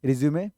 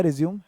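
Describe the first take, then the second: First: रिज्यूमे ending in an open "may"; pronounced with final e. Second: रिज्यूम closed on the m; pronounced without final e. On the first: Teacher contrasting two words for students, रिज्यूमे with a sounded final e. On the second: Teacher contrasting two words for students, रिज्यूम with no final vowel. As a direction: say रिज्यूम as re-zyoom, ending at m. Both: Shown as a demonstration. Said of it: "जिसको ध्यान रखना है".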